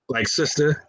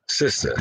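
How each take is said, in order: First: "sister?" asked with a rising, unsure lift; puzzled and caught off guard, saying "sister?"; flustered questioning. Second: "Sister." said low and soft with a falling end; dreamy, gazing, saying "Sister."; smitten and lost for words. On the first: Brother caught off guard by the sister, asking "sister?". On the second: Brother smitten by the sister, murmuring a soft, falling "Sister.". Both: Pretend. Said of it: "I don't even know what to say".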